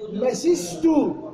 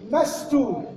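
First: The s is doubled with an i between them. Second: The first vowel is a, with no middle vowel. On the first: "النطق الثالث مسستو ماسي كسر السين" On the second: "النطق الأول مستو بفتح الميم وسكون السين"

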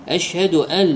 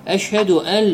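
The two takes are said the same way.

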